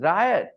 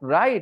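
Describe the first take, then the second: First: The word is said as two syllables, 'ri-ot'. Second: The word is said as one syllable, like 'right'. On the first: The speaker calls it right. "it is riot" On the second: The speaker calls it wrong. "it is not right"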